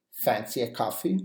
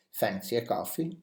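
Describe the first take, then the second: First: Said in the usual way. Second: Gentle rise on "coffee", softer; softer repeat. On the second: Shown as a demonstration. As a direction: offer it lightly. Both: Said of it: "For example".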